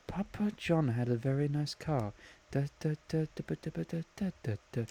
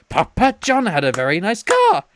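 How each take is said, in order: First: Very soft sing-song muttering to oneself; quiet murmuring. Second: Chanted, raised-pitch, emphatic mock announcement; chanted, belt it out like a silly catchphrase; clap-along chant retold. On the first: Retold or imitated. Imitating friend working out a song to himself, quiet murmur. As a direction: murmur it absently under your breath. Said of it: "he was just quietly murmuring to himself". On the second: Imitating friend who claps and repeats his line, emphatic chant. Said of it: "He just starts clapping and goes".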